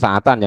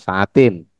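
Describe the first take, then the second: First: The word ends with an 'an' sound. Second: The word ends with an 'in' sound. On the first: The speaker calls it right. "Itu sa'atan" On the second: The speaker calls it wrong. "jangan dibaca sa'atin"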